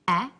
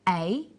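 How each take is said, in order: First: The vowel is a short sound. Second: The vowel is a long sound. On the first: "the short vowel sounds" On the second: "the long vowel sounds"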